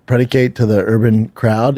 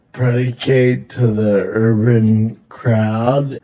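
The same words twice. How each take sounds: First: Said in the usual way. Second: Predicate to the urban crowd? drawn out slowly, each word spaced; slow, mocking repeat. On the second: Mocking her word choice to his friend, slow and deliberate.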